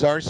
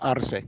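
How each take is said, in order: First: The name is said with English sounds. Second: The name is said with Spanish sounds. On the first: This is how non-Spanish speakers say it. "For the non-Spanish speakers, they pronounce it as Arce" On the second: This is how Spanish speakers say it. "I speak Spanish. It's Arce"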